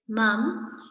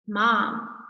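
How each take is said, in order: First: It is said with a British vowel. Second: It is said with an American vowel. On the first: "In England, Great Britain, they say mum" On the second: "In America, we say mom"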